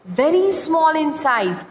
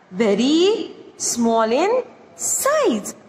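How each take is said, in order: First: Said in the usual way. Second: Very small in size, slowly and deliberately; slow, spelled-out repeat. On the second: Shown as a demonstration. Teacher repeating the meaning for students, slowly. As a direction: stretch every word so students catch it. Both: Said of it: "Tiniest means very small in size".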